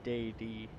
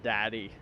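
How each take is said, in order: First: It is split into two separate syllables. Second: It is said as one ordinary word. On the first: The speaker avoids an awkward-sounding word. "I did say that weird on purpose" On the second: It sounds like the everyday word. "didn't want to pronounce it as"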